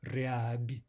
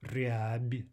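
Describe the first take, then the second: The two takes are said the same way.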